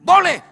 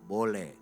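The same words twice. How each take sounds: First: The word is shouted loudly. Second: The word is said at half voice.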